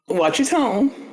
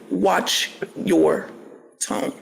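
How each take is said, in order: First: The phrase is said at a normal pace. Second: The phrase is said slowly and deliberately.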